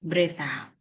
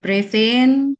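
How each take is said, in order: First: Quiet "Breathe out" with falling tune; "out" dropping away for the exhale; exhale cue. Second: Loud "Breathe in" rising on "in"; swelling, raised "in" for the inhale; inhale cue. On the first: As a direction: let "out" sink softly. Cueing the group's exhale. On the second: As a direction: stretch "in" upward and louder. Cueing the group's inhale. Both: Shown as a demonstration.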